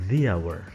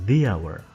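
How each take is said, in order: Both takes have the same delivery.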